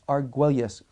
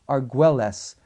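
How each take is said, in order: First: The name is pronounced the local way. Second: The name is pronounced the English way.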